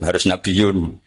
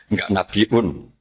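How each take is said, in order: First: The word is said with a y, no glottal stop. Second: The word is said with a glottal stop hamzah.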